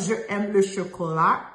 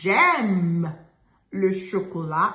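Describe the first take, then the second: First: The vowel of je is kept before aime. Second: The vowel of je is dropped before aime. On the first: The speaker calls it wrong. "It's not je aime le chocolat" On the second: The speaker calls it right. "It's j'aime le chocolat"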